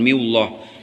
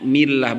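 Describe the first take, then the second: First: The l is thick and heavy. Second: The l is thin and light. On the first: The speaker calls it wrong. "bukan miullah" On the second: The speaker calls it right. "dibacanya tarkik millah"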